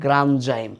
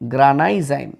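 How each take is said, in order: First: The word has no extra middle syllable. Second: The word has an extra middle syllable. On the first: The speaker calls it right. "এটার উচ্চারণ হবে গ্রানজাইম" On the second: The speaker calls it wrong. "এই নামটা কিন্তু ভুল"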